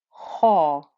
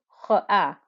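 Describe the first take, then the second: First: The vowel sounds thick, heavy and deep. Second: The vowel sounds thin, light and plain. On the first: The speaker calls it right. "The whole of the vowel becomes thick and heavy" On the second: The speaker calls it wrong. "I'm not saying ha"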